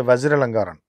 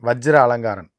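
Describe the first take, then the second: First: The name ends with a 'karan' sound. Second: The name ends with a 'karan' sound.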